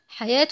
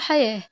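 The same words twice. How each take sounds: First: The final letter is pronounced as a t sound. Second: The final letter is pronounced as an h sound. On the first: More words follow in the same phrase. "حياة هنا نطقت تاء مفتوحة لأنها في وسط الكلام" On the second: The sentence ends on this word. "وقفنا عليها بالهاء"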